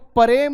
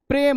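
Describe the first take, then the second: First: The first consonant is drawn out with a vowel. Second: The first consonant is cut short and quick. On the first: The speaker calls it wrong. "तुमको प्रेम नहीं हुआ है" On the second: The speaker calls it right. "प्रेम हुआ है"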